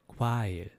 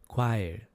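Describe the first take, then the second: No difference in how they are said.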